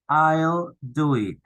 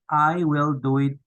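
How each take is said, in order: First: 'I will' is contracted into one syllable. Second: 'I will' is said as two full words.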